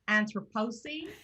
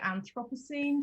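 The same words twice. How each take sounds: First: It is pronounced the American way. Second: It is pronounced the British way. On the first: "the Americans pronounce it" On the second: "the British pronounce it Anthropocene generally"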